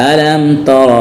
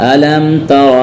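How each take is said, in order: Both takes have the same delivery.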